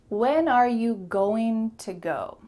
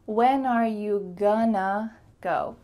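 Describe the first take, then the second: First: 'Going to' is pronounced in full. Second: 'Going to' is reduced to 'gonna'. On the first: "very clear, but not quite so natural" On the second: "You could say"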